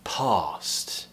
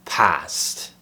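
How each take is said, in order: First: "past" with long open ah; "past" with a long back ah, RP style. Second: "past" with short flat a as in cat; "past" with the flat æ vowel. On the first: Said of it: "It would be the second option". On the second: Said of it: "sometimes you'll hear someone say". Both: Shown as a demonstration.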